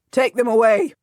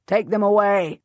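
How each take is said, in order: First: Loud, impatient command; repeated order, louder. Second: Loud, curt order; snapped order. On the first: Salisbury repeating his order, louder and impatient. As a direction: bark it out again, harder. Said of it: "Salisbury repeats". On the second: Salisbury ordering the captives away, snapping. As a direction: snap it at the guards. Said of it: "the Earl of Salisbury snaps". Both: A narrator's reading.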